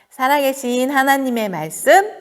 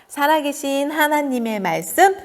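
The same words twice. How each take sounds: No difference in how they are said.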